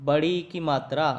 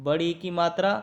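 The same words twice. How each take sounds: No difference in how they are said.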